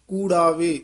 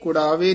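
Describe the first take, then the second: First: The first vowel is a long u. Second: The first vowel is a short u. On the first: The speaker calls it right. "ਕੂੜਾਵੇ ਦਲੈਂਕੜ ਨਾਲ ਉਚਾਰਨ ਕਰਨਾ" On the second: The speaker calls it wrong. "ਕੁੜਾਵੇ ਨੀ ਕਹਿਣਾ"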